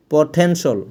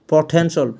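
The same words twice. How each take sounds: The two takes are said the same way.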